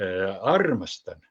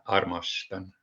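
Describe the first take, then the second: First: The first syllable is drawn out, overlong. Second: The first syllable is short with an energetic push. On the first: The speaker calls it wrong. "никогда не не говорите ему, э, armastan" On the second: The speaker calls it right. "а armastan"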